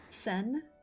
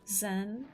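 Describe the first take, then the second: First: The name begins with a hissing s sound. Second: The name begins with a buzzing z sound.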